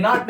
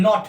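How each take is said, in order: First: "not" said the wrong way, with a flat tongue; teacher showing how "not" should not sound. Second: "not" said clearly, tongue rising toward the top of the mouth; teacher modelling the right "not"; correct not. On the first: Teacher showing students the wrong way to say "not". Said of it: "ये not नहीं है". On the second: Teacher modelling the correct "not" for students. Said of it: "ये not है". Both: Shown as a demonstration.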